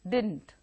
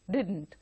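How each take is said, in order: The two takes are said the same way.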